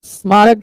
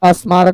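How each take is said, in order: First: The word begins directly with the s-consonant cluster. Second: An extra vowel is added before the s-cluster. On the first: The speaker calls it right. "स्मारक के जगह पर" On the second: The speaker calls it wrong. "अस्मारक बोले"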